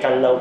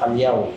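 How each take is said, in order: First: The middle consonant is a firm plain L. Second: The middle consonant is a soft LY sound. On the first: The speaker calls it right. "yun po yung proper po na pronunciation" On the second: The speaker calls it wrong. "hindi rin po siya Kalyaw"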